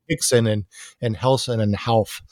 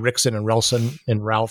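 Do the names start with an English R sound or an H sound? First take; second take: H sound; English R. First: Each name starts with an H sound. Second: Each name starts with an English R sound. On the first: "that's the Portuguese pronunciation" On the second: "It's spelled Rickson"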